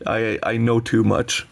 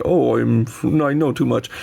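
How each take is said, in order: First: Said in the usual way. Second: Lightly hammed-up smug sigh of knowing; a hint of mock superiority; mock know-it-all. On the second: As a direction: play a snob who knows too much. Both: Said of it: "It's not even me being like".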